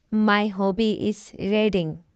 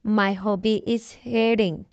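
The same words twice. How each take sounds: The two takes are said the same way.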